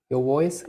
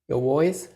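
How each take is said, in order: The two takes are said the same way.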